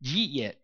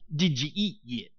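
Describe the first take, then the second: First: The words are squeezed into two short syllables. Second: Each word is said separately and clearly. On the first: "I couldn't even understand what they were saying" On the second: "He says"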